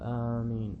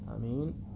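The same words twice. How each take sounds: First: The first vowel is long. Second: The first vowel is short. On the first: "ومدها" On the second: "قصر الألف"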